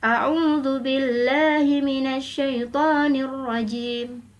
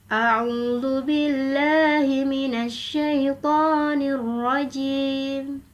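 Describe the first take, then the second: First: It is recited at a fast tempo. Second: It is recited at a medium tempo. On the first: "Untuk bacaan hadr, ... cepat" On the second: "Untuk bacaan tadwir, ... sedang"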